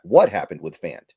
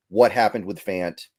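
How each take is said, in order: First: "What happened with Fant?" with the stress moved off "Fant"; stress shifted. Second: Said in the usual way. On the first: Retold or imitated. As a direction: repeat "What happened with Fant?" back, leaning on a different word than "Fant". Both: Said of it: "where you put the emphasis on a different word".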